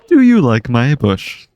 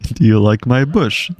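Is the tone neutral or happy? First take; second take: happy; neutral. First: It is said in a much happier tone. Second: It is said in a plain, neutral tone.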